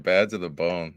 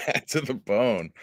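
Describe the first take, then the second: First: Said in the usual way. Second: Amused slow laugh through words. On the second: Real, not acted. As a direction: chuckle as you say it. Repeating song title amused.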